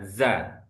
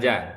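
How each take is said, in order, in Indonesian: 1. Suku kata ini diawali bunyi 'z' yang berdengung. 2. Suku kata ini diawali bunyi 'j'. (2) "bukan ja"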